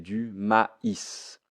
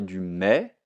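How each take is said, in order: First: The word is said as two syllables. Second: The word is said as one syllable. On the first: The speaker calls it right. "ce i, je le prononce i" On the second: The speaker calls it wrong. "je ne vais pas dire du mais"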